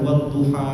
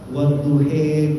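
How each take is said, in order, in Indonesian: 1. Vokal akhirnya adalah 'a' terbuka biasa. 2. Vokal akhirnya bergoyang condong ke bunyi 'e'. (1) "Misalkan wadduha" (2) "ada qiraah wadduhe goyang ya, Syu'bah"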